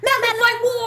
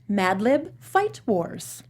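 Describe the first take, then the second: First: It is said fast with hyped energy. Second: It is said slowly and flatly.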